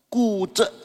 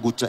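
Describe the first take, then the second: First: The word starts with a voiceless K sound. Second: The word starts with a voiced G sound. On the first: The speaker calls it right. "Baca pakai K jadinya. G jadi K ya" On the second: The speaker calls it wrong. "Guje jangan dibaca guje ya"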